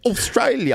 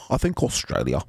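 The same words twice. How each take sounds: First: Bad Australian accent. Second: Said in the usual way. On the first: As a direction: try the Australian accent once more, hammed-up. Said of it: "That was a terrible accent".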